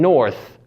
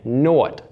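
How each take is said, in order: First: The word ends with a th sound. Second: The word ends with a t sound. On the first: "with the th sound" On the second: "more of a dentalized t"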